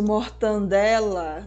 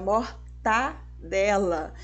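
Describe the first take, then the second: First: An 'n' sound comes before the 'd'. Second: No 'n' sound comes before the 'd'. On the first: The speaker calls it wrong. "o famoso mortandela, nossa, não pode" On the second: The speaker calls it right. "é mortadela"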